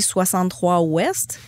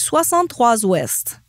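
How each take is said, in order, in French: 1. trois et ouest sont séparés, pas de z. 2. trois et ouest sont liés par un z.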